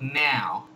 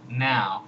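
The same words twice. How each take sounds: First: The vowel starts closer to the 'cat' vowel. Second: The vowel starts with an open 'ah' sound. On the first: "a little bit more like now" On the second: "It's like Spanish ah, ... and then put vowel"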